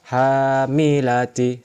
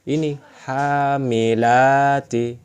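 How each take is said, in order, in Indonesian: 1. Vokalnya dibaca pendek. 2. Vokalnya dibaca panjang. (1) "Ini tidak dibaca panjang" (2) "Jelas ini yang dibaca panjang"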